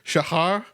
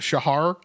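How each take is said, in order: First: The name is said the native way. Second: The name is said the English way. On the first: This is how the name's owner says it. "something more like Shahar" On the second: This is the easier way for English speakers. "like we all say, but it's easier to say that in English"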